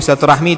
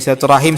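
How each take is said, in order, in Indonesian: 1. Kata ini berakhir dengan suku kata rah-mi. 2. Kata ini berakhir dengan suku kata ra-him. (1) "Silaturahmi itu bahasa kita ya, ... cuma pengucapannya kurang pas gitu" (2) "Bahasa Arabnya silatul silaturahim"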